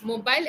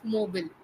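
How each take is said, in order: First: "Mobile" with a long "bile" like "bail"; pengucapan umum. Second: "mobile" as MOH-bil, short second syllable; pengucapan benar. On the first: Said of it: "is what everyone pronounce it". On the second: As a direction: say "mobile" ending in a short "bill". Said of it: "it is actually pronounced as". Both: Shown as a demonstration.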